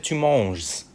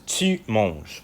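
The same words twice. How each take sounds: First: "tu manges" with the final s sounded; English-style "manges" with the s pronounced; wrong final s. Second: "tu manges" slowly, the s left silent; correct silent s. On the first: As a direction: say "tu manges" wrongly, hissing the s at the end. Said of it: "You are not going to say". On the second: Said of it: "Forget it". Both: Shown as a demonstration.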